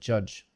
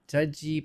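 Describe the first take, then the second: First: The word stops cleanly on the j sound. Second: An extra vowel is added after the final j. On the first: The speaker calls it right. "but judge" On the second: The speaker calls it wrong. "not judgy"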